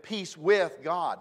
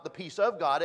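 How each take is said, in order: First: "with" leaned on, louder and drawn out; slow down and hit the word "with"; stress on WITH. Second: "of" punched as the mistaken word; stress on OF. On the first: Preacher correcting a phrase for the congregation, stress on "with". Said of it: "That's not the peace of God". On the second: Preacher rejecting the wrong phrase, stress on "of". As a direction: hit "of" to set up the correction. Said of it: "it's peace with God". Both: Shown as a demonstration.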